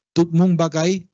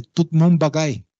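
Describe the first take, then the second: First: "Tut Mun Bagay" at normal speed and loud, stress on "Mun" with the pitch rising; creole phrase repeated. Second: "Tut Mun Bagay" slow and loud, each syllable set apart, stress on "Mun" with the pitch falling; creole phrase. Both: Shown as a demonstration. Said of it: "una expresión que se dice".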